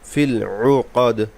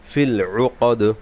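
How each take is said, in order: The two takes are said the same way.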